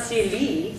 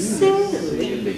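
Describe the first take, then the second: First: "silly" with both syllables equally long; evenly weighted "silly". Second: "silly" with a long first syllable, short second; slow, stretched "silly"; long then short. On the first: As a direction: say "silly" without a long-short contrast. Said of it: "It's not silly". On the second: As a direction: hold "sil", then drop quickly to "ly". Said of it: "go short as long". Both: Shown as a demonstration.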